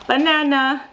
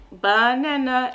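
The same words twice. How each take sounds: First: Higher, louder, bright announcement; higher and louder excited label; excited naming. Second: Very slow, drawn-out label; very slow, clear repeat of the word; slow modeling. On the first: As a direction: sell the banana with a little gasp of delight. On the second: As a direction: stretch the word out slowly for the child. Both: Shown as a demonstration. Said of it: "you can peel it and be like".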